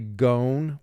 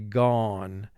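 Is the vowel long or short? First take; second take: long; short. First: The vowel sounds like the letter name 'O'. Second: The vowel is short, as in 'on'. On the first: The speaker calls it wrong. "the O, according to vowel group three, will represent its long sound" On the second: The speaker calls it right. "we say gone"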